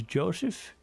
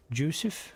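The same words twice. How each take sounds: First: "Joseph" said as JOH-sef, questioning; first pronunciation attempt. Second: "Joseph" said as JOO-sef, questioning; alternative pronunciation attempt. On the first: Streamer unsure of viewer's name, trying "Joseph" as JOH-sef. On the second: Streamer unsure of viewer's name, retrying "Joseph" as JOO-sef. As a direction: say "Joseph" with an OO vowel, rising. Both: Real, not acted. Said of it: "I apologize if I pronounced that wrong".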